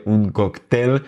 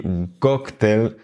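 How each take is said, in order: First: "cóctel" wrongly stressed on the last syllable, coc-TEL; accent sur la dernière. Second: "cóctel" stressed on the first syllable, COC-tel; accent sur la première. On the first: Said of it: "on devrait accentuer la dernière syllabe". (« cóctel » accentué sur la dernière syllabe, coc-TEL) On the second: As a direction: hit COC in "cóctel", let tel fall away. (« cóctel » accentué sur la première syllabe, COC-tel) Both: Shown as a demonstration.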